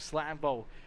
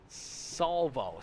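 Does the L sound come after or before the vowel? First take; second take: before; after. First: The L sound comes before the vowel. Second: The L sound comes after the vowel. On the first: The speaker calls it wrong. "I've been saying it wrong for weeks" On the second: The speaker calls it right. "you're finally letting me know"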